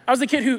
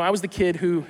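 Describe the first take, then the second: First: Words break into a quick laugh, rushed; laughing through it. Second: Said in the usual way. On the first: Pretend. Imagined boy bragging in heaven, laughing as he says it. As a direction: laugh while bragging, a bit faster.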